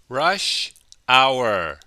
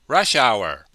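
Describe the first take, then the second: First: The phrase is said slowly and carefully. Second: The phrase is said quickly and run together.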